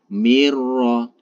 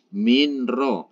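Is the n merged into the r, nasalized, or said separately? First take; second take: merged; separate. First: The n merges fully into the r, unnasalized. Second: The n is pronounced separately before the r. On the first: The speaker calls it right. "ditekan tanpa didengungkan ... itu yang benar" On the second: The speaker calls it wrong. "jangan sampai minro"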